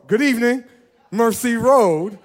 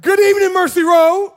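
First: A steady friendly call-out; calm greeting call. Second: Rally the room with a big shouted greeting; loud greeting call. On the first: Pastor first greets the congregation in a moderate call. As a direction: greet them at an easy pace, stretching Road. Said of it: "I say". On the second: Pastor calls out to the congregation with a loud greeting. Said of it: "get ready for the second time". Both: Shown as a demonstration.

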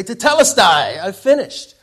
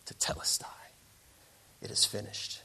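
First: Higher, much louder triumphant call; excited boy. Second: Whispered, softer awe; hushed satisfaction. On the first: Boy runs to show mom his paper, excited shout. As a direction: burst out like a boy done with homework. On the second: Sculptor steps back from the perfect masterpiece, hushed whisper. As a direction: whisper it to yourself over finished work. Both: Acted.

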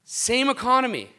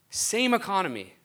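First: Punched "Same economy"; emphatic, higher and louder. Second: Said in the usual way. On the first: Real, not acted. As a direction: hit "Same economy" hard and high.

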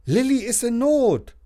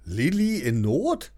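First: Put-on higher, louder boy calling ahead; calling from afar. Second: Slower, puzzled echo Lilli in Not?; mildly astonished mum; mother echoes Lilli in Not? in mild surprise; surprised mother. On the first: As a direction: call out to Mum from across the room. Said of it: "sagt er schon von weitem". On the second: Acted. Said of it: "fragt die Mama erstaunt".

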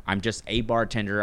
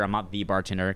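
First: "a" said in full as "ay"; stress on A. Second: "the" set apart, meaning the only one; stress on THE. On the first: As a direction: lean on "a" to mean one of many. Contrasts A with THE bartender. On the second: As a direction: lean on "the" before "bartender". Contrasts THE with A bartender. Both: Retold or imitated.

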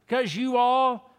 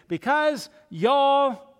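First: "you all" split into two words, louder and higher; spelled-out you all. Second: Slow, drawn-out Southern "y'all", louder and higher. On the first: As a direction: land hard on "all" in "you all". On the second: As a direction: stretch "y'all" like a Texan preacher. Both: Shown as a demonstration. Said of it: "we might say it like this".

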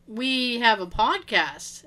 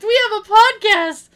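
First: Slow, measured retold answer; slow explanation. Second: High, loud imitation of an insistent friend; loud insistence. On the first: Friend explains himself to the head librarian, slowly. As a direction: spell it out slowly, at normal volume. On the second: Friend points to his shirt for the librarian, loudly insisting. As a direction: belt it out as if not understood. Repeats it after she says "What?.

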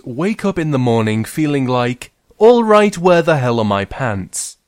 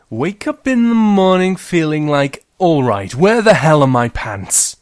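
First: Said in the usual way. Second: High, loud pants panic; frantic girl. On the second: Acted. Girl hunting for her pants, high loud panic. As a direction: yell it like a frantic morning search. Narrator starts story in character.

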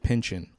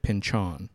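First: Pynchon said as PIN-chun; common pronunciation. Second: Pynchon said as pin-CHON; alternative pronunciation. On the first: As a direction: say Pynchon with a weak, reduced second syllable, "chun". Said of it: "Many people pronounce it". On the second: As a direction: give Pynchon a full open "chon" ending. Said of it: "I've always pronounced it". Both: Shown as a demonstration.

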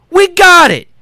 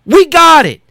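The two takes are said the same way.

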